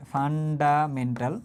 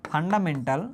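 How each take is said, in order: First: 'fundamental' very slow, syllable by syllable; slow dictation. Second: Said in the usual way. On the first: Shown as a demonstration. Teacher repeats what F stands for, slow dictation. Repeats term slowly for note-taking.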